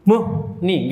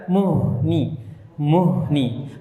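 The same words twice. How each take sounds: First: "Muhni" with "muh" stopped short before "ni"; broken "Muhni", no air flowing on the H; cut-off H. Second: "Muhni" with breath running through the H into "ni"; unbroken airy H inside "Muhni"; flowing H. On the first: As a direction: chop the H, leave a gap, then "ni". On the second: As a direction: let the H of "Muhni" flow on. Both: Shown as a demonstration. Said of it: "enggak, dialirkan".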